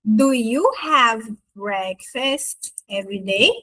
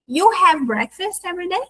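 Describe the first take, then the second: First: Said in the usual way. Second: "You have breakfast every day?" run together quickly, higher, rising at the end; casual native question, pitched up, "day" lifted; statement as question. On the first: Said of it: "Ficaria assim, ó". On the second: Shown as a demonstration. Native turns to us and asks without do, rising question. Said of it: "já vai como pergunta".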